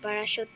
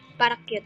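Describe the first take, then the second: First: The word ends with a 'shoot' sound. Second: The word ends sounding like 'cute'.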